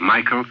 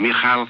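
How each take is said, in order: First: The name has its English pronunciation. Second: The name has its Hebrew pronunciation. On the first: "it's called" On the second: "this is the Hebrew pronunciation"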